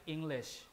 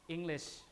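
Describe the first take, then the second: The two takes are said the same way.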